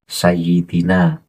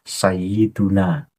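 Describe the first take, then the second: First: The vowel after 'sayyid' is i. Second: The vowel after 'sayyid' is u. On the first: The speaker calls it wrong. "Jangan dibaca" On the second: The speaker calls it right. "yang tepat adalah"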